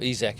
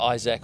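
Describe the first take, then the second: First: The name is said with French pronunciation. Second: The name is said with English pronunciation.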